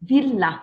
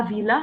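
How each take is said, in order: First: "Villa" with a held double L, vil-la; long double L. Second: "villa" with one quick short L, vila, as the mistake; wrong short L. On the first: Teacher modelling the right way for the class, held double L in "Villa". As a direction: lean on the LL in "Villa", then fall. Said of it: "tu as deux L". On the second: Teacher showing the class the wrong way, short single L. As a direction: rush the L in "villa" to show the error. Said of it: "c'est pas villa". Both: Shown as a demonstration.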